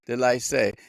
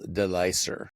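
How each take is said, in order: First: The surname is given a French-style pronunciation. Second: The surname is given a plain English pronunciation. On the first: The speaker calls it wrong. "I was going for something French there" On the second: The speaker calls it right. "it's Kendall Delicer"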